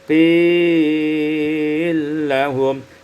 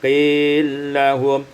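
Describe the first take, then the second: First: The long vowel is held a medium time. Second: The long vowel is held briefly.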